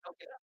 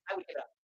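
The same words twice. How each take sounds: First: Quiet, sinking echo; hushed echo of the line; soft repeat. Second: Raised, emphatic declaration; high and emphatic give it up; firm statement. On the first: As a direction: let it fall away softly. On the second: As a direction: say it like you mean it. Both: Shown as a demonstration.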